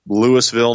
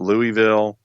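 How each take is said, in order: First: It is said the local Georgia way. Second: It is said the common non-local way. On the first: This is how people in the area say it. The speaker calls it right. "It is uh, Louisville" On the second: This is how outsiders say it. The speaker calls it wrong. "not Louisville"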